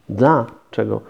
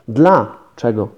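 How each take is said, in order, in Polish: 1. Słowo jest rozdzielone pauzą w środku. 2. Słowo jest rozdzielone pauzą w środku.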